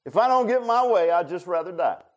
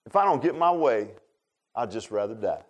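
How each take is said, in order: First: Put-on a sulking child's tantrum; whiny little kid. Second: Put-on sulky kid. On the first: Preacher mimics Jonah sulking to God, childish tantrum. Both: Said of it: "sound just like a little kid".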